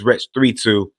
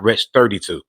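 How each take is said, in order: First: The number is read as two separate digits. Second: The number is read as one whole number. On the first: The speaker calls it right. "I believe it's Wretch three two" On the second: The speaker calls it wrong. "and not Wretch thirty-two"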